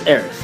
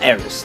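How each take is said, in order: First: The name ends with a th sound. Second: The name ends with an s sound. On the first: The speaker calls it right. "the actual pronunciation of her name is Aerith" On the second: The speaker calls it wrong. "not Eris. That was a mistranslation"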